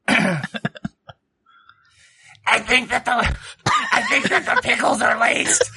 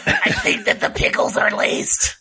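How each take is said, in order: First: Whispered character voice. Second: High, breathless whisper through laughter. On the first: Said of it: "so that he's whispering into Emmy's ear". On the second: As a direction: whisper it close into her ear. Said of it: "He whispers it quietly in your ear". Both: Acted.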